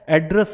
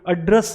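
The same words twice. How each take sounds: First: The first vowel sounds like 'eh'. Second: The first vowel sounds like 'uh'. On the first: The speaker calls it wrong. "एड्रेस नहीं बोला जाता" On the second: The speaker calls it right. "अ अ sound आती है"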